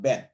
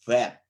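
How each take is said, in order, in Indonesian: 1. Kata ini diawali dengan bunyi b. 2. Kata ini diawali dengan bunyi v. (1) "bukan bet ya. bukan B" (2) "kita membacanya vet, Jadi V"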